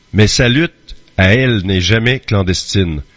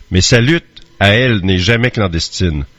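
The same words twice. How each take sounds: No difference in how they are said.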